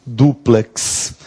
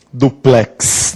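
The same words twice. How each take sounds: First: Duplex with stress on du, softly; correct stress. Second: Duplex with stress on plex, the wrong way. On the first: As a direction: say Duplex leaning on du. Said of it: "a sílaba tônica é o du". (Duplex com tônica em du) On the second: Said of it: "Não, a sílaba tônica é o du". (Duplex com tônica errada em plex) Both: Shown as a demonstration.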